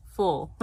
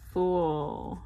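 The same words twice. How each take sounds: First: Said in the usual way. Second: "full" said like "fool" in a Southern country accent. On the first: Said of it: "Not fool, full". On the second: Real, not acted. Filling in her planner, country accent slips into "full". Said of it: "that country accent coming out".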